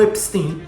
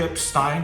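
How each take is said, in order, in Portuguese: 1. O nome é dito do jeito local de Liverpool. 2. O nome é dito do jeito de Londres, mais tarde. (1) "em Liverpool eles falam Epstein" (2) "começou a se chamar de Epstein logo quando os Beatles vão para Londres"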